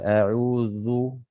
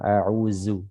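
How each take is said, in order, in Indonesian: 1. Konsonannya adalah bunyi dh berat, tebal. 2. Konsonannya adalah bunyi z biasa. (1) "Atau zalnya tebal" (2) "Jangan sampai berubah menjadi huruf zai ya"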